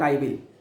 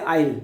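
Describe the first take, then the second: First: It is said as two full separate words. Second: It is contracted into one short syllable. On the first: The speaker calls it wrong. "not I will. It sounds odd" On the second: The speaker calls it right. "that sounds better because in spoken English we say I'll"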